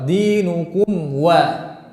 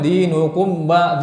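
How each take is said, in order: First: The lips round forward, giving a w sound. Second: The lips close fully, giving a b sound. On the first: The speaker calls it right. "harus melingkar" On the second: The speaker calls it wrong. "tidak boleh ucapkan dinukum ba"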